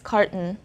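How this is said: It is said with an English pronunciation. "And in English, it's carton"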